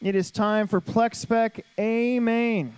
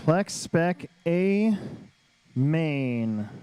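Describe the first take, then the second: First: Drawn-out event announcement; slow, grand announcer build; announcer call. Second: Very slow, stretched event name; drawn-out announcer call. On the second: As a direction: draw out each word, then drop. Announcing the main event again. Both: Real, not acted.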